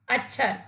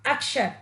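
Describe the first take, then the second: First: अक्षर said as "अच्छर", with च and छ in place of क्ष; teacher demonstrating the wrong अक्षर: "अच्छर" with a च-छ sound; wrong pronunciation. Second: अक्षर with a clear क्ष, "अक्-षर"; teacher modelling the correct अक्षर with the क्ष cluster; correct pronunciation. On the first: Teacher showing children the mistake, अक्षर as "अच्छर". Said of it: "जहां पर आधे च और छ का प्रयोग किया गया है, वो शब्द ... गलत हो गया है". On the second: Teacher showing children the right form, अक्षर with a clear क्ष. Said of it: "इन दोनों शब्दों में अक्षर शब्द शुद्ध है". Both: Shown as a demonstration.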